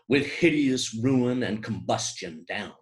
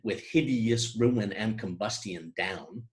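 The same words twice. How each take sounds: First: Syllables are elided and the long word is sped up. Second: Every syllable is fully pronounced, without speeding up. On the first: "with elision, accelerating a little bit over the polysyllabic term" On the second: "were we to pronounce every syllable in this line"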